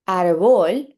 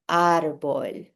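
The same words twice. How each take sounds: First: The stress is on the second syllable. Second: The stress is on the first syllable. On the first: The speaker calls it wrong. "That would be the accent on the O" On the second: The speaker calls it right. "It's árbol"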